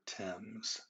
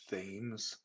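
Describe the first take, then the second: First: It is sounded differently from its spelling. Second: It is sounded out the way it is spelled. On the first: The speaker calls it right. "We're going to pronounce the name of that river Thames" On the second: The speaker calls it wrong. "when people see it written out, it looks like it's Thames, but it is not"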